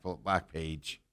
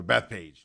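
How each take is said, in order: First: Backpage said with a b and a k, like back; Backpage, the wrong name for the course; slip of the tongue. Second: Bethpage said beth, with a th, then page; Bethpage, carefully corrected; corrected name. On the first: Slipping on the course name, saying Backpage. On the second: Correcting himself to his co-host: Bethpage. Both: Real, not acted.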